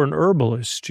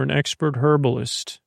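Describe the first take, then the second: First: "herbalist" with the h dropped; silent H. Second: "herbalist" with the h pronounced; sounded H. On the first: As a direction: say "herbalist" as ER-buh-list. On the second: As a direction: say "herbalist" as HER-buh-list. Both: Acted. Corrects between two pronunciations of herbalist.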